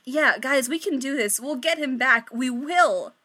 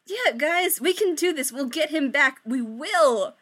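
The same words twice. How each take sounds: First: Unconvincing cheer. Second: Forced, higher cheerful reassurance; unconvincing cheer. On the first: Victoria reassuring her friends with hollow, forced cheer. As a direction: push through fake confidence. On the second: Victoria reassuring her friends with forced, unconvincing cheer. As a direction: fake confidence you don't feel. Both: Acted. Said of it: "most unconvincing smile ever".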